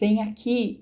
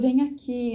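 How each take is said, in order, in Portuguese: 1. É dito num tom bravo e áspero. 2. É dito num tom suave e gentil. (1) "em um tom bravo, em um tom de raiva" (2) "num tom mais suave, num tom paciente, num tom afetivo"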